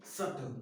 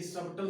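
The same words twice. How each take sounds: First: सटल with no b sound, lower; silent B in सटल. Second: सबटल with a clear b before the t; B sounded in सबटल. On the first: Teacher correcting the reading for students, b left silent. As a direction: say सटल, going straight to t. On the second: Teacher rejecting the misreading, b pronounced. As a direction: say सबटल wrongly, voicing the silent b. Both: Shown as a demonstration. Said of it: "सबटल नहीं".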